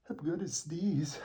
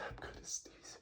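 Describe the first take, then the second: First: Said in the usual way. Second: Faint whispered warning; whispering. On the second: Real, not acted. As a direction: drop to a whisper.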